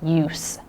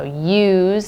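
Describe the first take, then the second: First: The word ends with a hissing S sound. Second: The word ends with a buzzing Z sound. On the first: It is the noun. "more of an S sound" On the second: It is the verb. "More of a Z sound"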